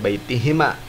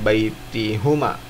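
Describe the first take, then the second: First: The vowel after the h is 'i'. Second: The vowel after the h is 'u'. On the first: The speaker calls it right. "maka dibacanya baitihima" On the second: The speaker calls it wrong. "bukan baitihuma, bukan"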